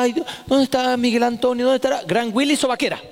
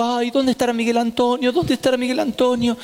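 First: Higher, sing-song mock concern; mother feigning worry, then springing the slipper throw; fake worry. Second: Higher, sing-song mock concern; mother feigning worry while waiting to ambush her son; fake worry. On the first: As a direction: act worried, then spring the punchline. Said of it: "Entonces decía". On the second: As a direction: pretend to be worried, looking around. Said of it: "yo me hago la preocupada".

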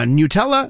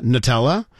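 First: "Nutella" with a y-glide, NYOO-tella; NYOO-tella pronunciation. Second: "Nutella" with a reduced first syllable, nuh-TELLA; nuh-TELLA pronunciation. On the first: Host shows the disputed first syllable, NYOO-tella. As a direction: say "Nutella" starting like "new" with a y. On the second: Host shows the disputed first syllable, nuh-TELLA. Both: Shown as a demonstration. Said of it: "Nobody agrees on the first syllable".

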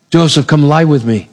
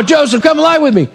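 First: Understated seduction. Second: High-pitched, pressing demand; insistent seduction. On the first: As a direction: invite him without pushing. Potiphar's wife first invites Joseph. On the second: Potiphar's wife pressing Joseph after his refusal, insistent. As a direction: push him, pitch well up. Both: Acted.

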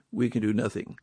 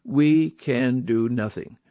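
First: Softer and lower, sinking the point in; a hushed repeat that lets it land; quiet echo. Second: Slow, weighty, every word landed; a preacher spelling out a hard truth; slow and emphatic. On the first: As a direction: let the repeat drop away quietly. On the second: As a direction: press each word home slowly. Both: Shown as a demonstration. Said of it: "friends, let's face it".

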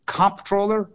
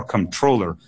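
First: COMP-troller, weight on the first syllable; "comptroller" with COMP hit hard; first-syllable stress. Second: "controller" stressed on TROLL; light first syllable in "controller", weight on TROLL; second-syllable stress. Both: Shown as a demonstration. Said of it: "emphasis on the wrong syllable debate".

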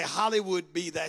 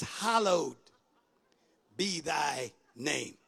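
First: "Hollywood" said with an ee in the middle, in place of hallowed; mispronounced hallowed. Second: "Hallowed" said slowly as HAL-owed, no ee sound; "Hallowed" in two clear syllables, then a slow, low finish; correct hallowed. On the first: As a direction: misread the prayer word as "Hollywood". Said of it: "Some people say". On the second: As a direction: carefully sound out "Hallowed", pausing after it. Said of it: "it's not Hollywood". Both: Shown as a demonstration.

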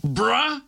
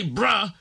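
First: "Bruh?" with a rising, mocking question tune; incredulous mocking bruh. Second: Said in the usual way. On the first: Shown as a demonstration. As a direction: repeat the caller's "Bruh?" as if you can't believe it. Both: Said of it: "B R U H".

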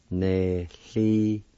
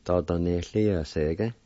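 First: Nehliosege drawn out slowly; slow demo word. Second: Dada nehliosege said a little slower, joined up; whole phrase. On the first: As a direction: stretch Nehliosege out for a learner. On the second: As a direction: put Dada nehliosege together smoothly. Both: Shown as a demonstration. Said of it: "It's pronounced like this".

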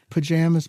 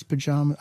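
First: "pajamas" with a flat a as in jam. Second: "pajamas" with a broad ah as in father. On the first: Testing her own word, "pajamas" with flat a. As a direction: say "pajamas" with the a of cat. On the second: Testing her own word, "pajamas" with broad ah. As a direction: say "pajamas" with an open ah. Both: Shown as a demonstration. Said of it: "I don't know what I say".

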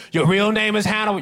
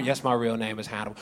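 First: Incredulous asker. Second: Weary deadpan. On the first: Asker voiced higher. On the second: Own answer flat low. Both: Retold or imitated.

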